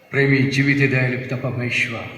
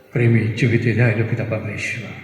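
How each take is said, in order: The two takes are said the same way.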